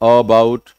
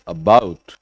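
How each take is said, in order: First: The first syllable is not weakened. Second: The first syllable is weak, with stress on 'bout'. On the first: The speaker calls it wrong. "It's not about" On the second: The speaker calls it right. "अ पे जोर कम है, bought पे ज्यादा है"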